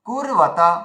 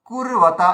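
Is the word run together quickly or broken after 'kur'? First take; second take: broken; broken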